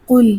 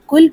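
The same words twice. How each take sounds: First: The first consonant is deep and thick. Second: The first consonant is light and thin. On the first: It means say. The speaker calls it right. "क़ाफ को मोटा करके पढ़ते हैं" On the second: It means eat. The speaker calls it wrong. "अगर काफ को बारीक पढ़ा जाए"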